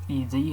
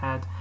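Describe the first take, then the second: First: It is said as two separate letters. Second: It is said as one short word. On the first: "how it should be pronounced" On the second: "but I like pronouncing it Ed"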